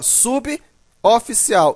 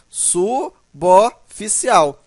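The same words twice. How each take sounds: First: The b ends 'sub', apart from 'oficial'. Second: The b joins the next vowel as 'bo'. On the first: The speaker calls it wrong. "você não vai ler assim, ó, suboficial, de forma alguma" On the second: The speaker calls it right. "ele puxa o B para a sílaba seguinte, formando suboficial"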